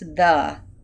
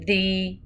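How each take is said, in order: First: The vowel is a short, reduced 'uh'. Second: The vowel is a long 'ee' sound. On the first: The speaker calls it right. "this is the" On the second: The speaker calls it wrong. "if you made it an open syllable, you would say the, but then you would sound like a robot"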